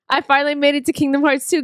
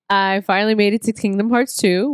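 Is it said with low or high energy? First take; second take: high; low. First: It is said with high energy. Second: It is said with low energy.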